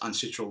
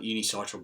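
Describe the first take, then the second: First: The word starts directly with 'un'. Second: The word has an extra syllable after 'u'. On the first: The speaker calls it right. "but it's uncitral" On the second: The speaker calls it wrong. "I call it unicitral before"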